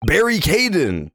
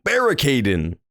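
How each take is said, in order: First: "Barry Caden" drawn out slowly and higher; savouring the name. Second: Said in the usual way. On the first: Shown as a demonstration. Streamer mulling the governor's name, slow and higher. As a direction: linger on "Barry Caden" as if tasting a pun. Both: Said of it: "That makes so much sense".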